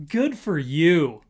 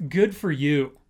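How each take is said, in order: Both takes have the same delivery.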